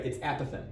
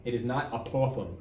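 First: Apothem stressed on the first syllable, A-po-them; correct stress. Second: Apothem said wrongly, stress on the second syllable; a-POTH-em, the wrong way. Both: Shown as a demonstration. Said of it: "The emphasis is on the first syllable".

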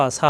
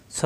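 First: সা with a thin open a; thinned-out সা; mistaken light s. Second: স with a rounded, heavy vowel; thick, emphatic স. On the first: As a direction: show the error, a light সা. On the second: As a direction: say স full, without an open a. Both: Shown as a demonstration. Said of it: "সা হবে না".

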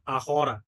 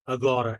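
First: আহরা with an H in the middle; Spanish silent-H ahora, voiced H. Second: আগরা with a hard G in the middle; Portuguese hard G. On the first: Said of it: "ওরা কিন্তু আগরা বলে না". (আহরা, মাঝে হ ধ্বনি) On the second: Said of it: "পর্তুগিজে আগেন্সিয়া অথবা". (আগরা, মাঝে গ ধ্বনি) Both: Shown as a demonstration.

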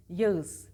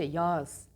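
First: Yağız as "ya-ız", ı audible; louder two-vowel Yağız; name pronunciation. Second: Yağız as one long "yaaz"; soft-G rule. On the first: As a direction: sound out Yağız as written. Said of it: "erkek ismi olarak kullanıyorsanız". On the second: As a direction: drop the ı in Yağız. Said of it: "yumuşak G kuralına uyun". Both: Shown as a demonstration.

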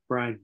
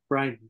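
No difference in how they are said.

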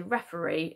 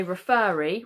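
First: Said in the usual way. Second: "referee" mispronounced as re-FER-ee; "referee" with the weight moved to the second syllable; wrongly stressed FER. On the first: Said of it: "we say referee". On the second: Shown as a demonstration. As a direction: punch a long "fer" in the middle of "referee". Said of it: "we don't say referee".

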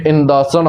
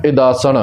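First: Nasalised first syllable in ਇੰਦਾਸਣ; ਇੰਦਾਸਣ opening on "in"; nasal in ਇੰਦਾਸਣ. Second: ਇਦਾਸਣ without nasalising the first vowel; no nasal in ਇਦਾਸਣ. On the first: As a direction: say ਇੰਦਾਸਣ with an n before the d. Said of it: "ਟਿੱਪੀ ਦੇ ਨਾਲ". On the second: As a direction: say ਇਦਾਸਣ with a plain short i, no n before the d. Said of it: "ਟਿੱਪੀ ਤੋਂ ਬਿਨਾਂ ਪਾਠ". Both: Shown as a demonstration.

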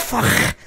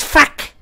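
First: "fuck" mimicked with a rounded vowel and scraped throaty ending, like "fokh"; "fuck" ending in a raspy kh instead of a k; mimicked accent pronunciation. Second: Said in the usual way. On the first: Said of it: "It's fuck". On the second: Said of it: "It's not, it's not fuck".

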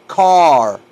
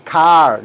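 First: CAR drawn out with a rounded open vowel; teacher's slow model "car", stretched; model pronunciation. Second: CAR with a plain, shorter "ah" vowel; the mistaken "car" to avoid, open "ah"; wrong pronunciation. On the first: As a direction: say "car" long and loud for learners. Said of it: "Díganlo así como lo digo yo". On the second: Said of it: "No digan car". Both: Shown as a demonstration.

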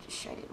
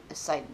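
First: "Shited" whispered with a sh sound, half to herself; hushed "Shited", sh instead of s; whispered blooper. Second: "Sighted" said clearly with an s sound, softly; quiet self-correction, "Sighted" with s; corrected word. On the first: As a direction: mutter the goof "Shited" with sh. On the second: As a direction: fix it to "Sighted" with a clean s. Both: Shown as a demonstration.

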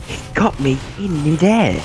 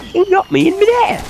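First: Said in the usual way. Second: Very high squeaky complaint; squeaky high whine. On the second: Acted. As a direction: squeal it like a cartoon.

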